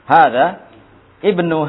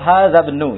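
First: The two words are said apart with a break. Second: The two words are run together without a break. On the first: "kalau diputus, putus-putus" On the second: "kalau dibaca yang wasal"

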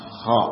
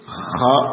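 First: The kh sound is clean and smooth. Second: The kh sound is rough and raspy. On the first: "dan bersih" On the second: "boleh dibaca dengan kotor"

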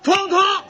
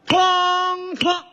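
First: The gong sound comes quickly, rushing the count. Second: The gong sound comes exactly in time. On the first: The speaker calls it wrong. "这不快了吗？" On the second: The speaker calls it right. "好，就照这样。"

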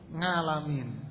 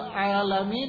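First: The word begins with an 'ng' sound. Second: The word begins with a vowel sound. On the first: The speaker calls it wrong. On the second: The speaker calls it right.

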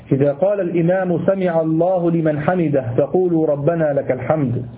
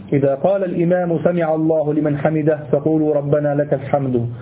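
Both takes have the same delivery.

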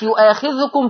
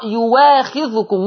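First: The second consonant is a glottal stop. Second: The second consonant is a w sound.

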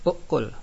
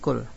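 First: The word starts with a vowel before the k. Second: The word starts directly with a k sound. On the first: This is the regular form by analogy. "kalau secara kiasnya ukul" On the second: This is the lightened form. "Terjadi takhfif menjadi kul"

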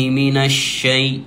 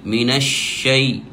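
No difference in how they are said.

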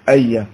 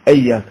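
First: The word begins with an 'a' vowel. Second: The word begins with an 'i' vowel. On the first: "وتكلموا كذلك بفتح همزة إياك" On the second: "مش إياك"

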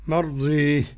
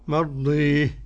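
Both takes have the same delivery.

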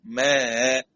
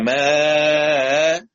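First: The vowel before the hamza is held briefly. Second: The vowel before the hamza is held long. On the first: "والقصر" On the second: "مع المد"

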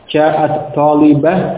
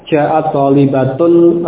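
First: The last word ends in a silent h sound. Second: The last word ends in a full 'tun' ending. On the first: The reader pauses and stops on this word. "ketika dibaca dengan waqaf ... Sehingga menjadi talibah" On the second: The word is read on without a stop.

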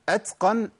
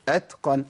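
First: An s-like hiss follows the t. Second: Only plain breath follows the t. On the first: The speaker calls it wrong. "ما بدلش التاء بسين او اجيب سين بعد التاء" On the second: The speaker calls it right. "أنا بمشي نفس بس"

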